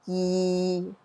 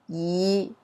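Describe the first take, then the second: First: It is said with Cantonese tone six. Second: It is said with Cantonese tone five.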